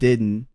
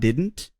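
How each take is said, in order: First: The T sound is dropped completely. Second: The T sound is clearly pronounced. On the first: "So the T is totally dropped there" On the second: "So it's not didn't"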